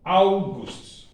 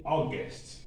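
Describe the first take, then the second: First: August with "ow" at the start and "oo" in the second syllable; German August. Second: August with the English "aw" vowel. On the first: Teacher giving students the German form, German August. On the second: Teacher showing students what Germans don't say, English August. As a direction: say August as English speakers do, "aw-gust". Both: Shown as a demonstration. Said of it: "We don't say August".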